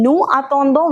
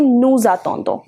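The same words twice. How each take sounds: First: "nous attendons" as noo a-ton-don, s silent; "nous attendons" unlinked, open oo before the a; without liaison. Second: "nous attendons" linked as noo-za-ton-don; "nous attendons" run together, s voiced as z; with liaison. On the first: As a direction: keep "nous" and "attendons" apart with no z between. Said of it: "instead of saying nous attendons". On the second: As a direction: join "nous" to "attendons" with a z sound. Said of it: "We sort of combine it". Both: Shown as a demonstration.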